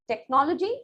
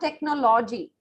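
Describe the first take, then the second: First: The stress falls on the first half of the word. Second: The stress falls on the second half of the word. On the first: The speaker calls it right. "Second half will always be short, compressed vowel sounds" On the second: The speaker calls it wrong. "not technology"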